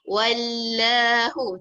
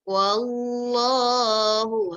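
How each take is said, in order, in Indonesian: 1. Huruf L dalam Allah dibaca tipis. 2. Huruf L dalam Allah dibaca tebal.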